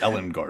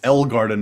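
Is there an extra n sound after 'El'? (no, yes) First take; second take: yes; no. First: It is said with an n sound after El. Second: It is said without an n sound after El. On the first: The speaker calls it wrong. "not Ellen Garden" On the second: The speaker calls it right. "it's El Garden"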